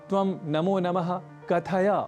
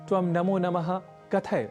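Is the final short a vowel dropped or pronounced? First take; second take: pronounced; dropped. First: The final short a vowel is pronounced. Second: The final short a vowel is dropped. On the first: The speaker calls it right. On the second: The speaker calls it wrong.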